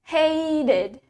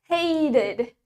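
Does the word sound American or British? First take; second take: American; American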